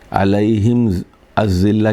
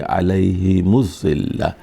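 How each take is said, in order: First: The m stays silent before the next word. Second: The m takes a u vowel linking forward.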